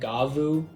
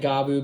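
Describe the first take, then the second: First: The middle consonant is a v sound. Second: The middle consonant is a b sound. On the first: This is how a commenter says it should be said. "somebody in the comments was saying I'm supposed to say it Gavu" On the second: This is how it sounds in the show. "I've been pronouncing it Gabu because that's the way it sounds like they're saying it in the show"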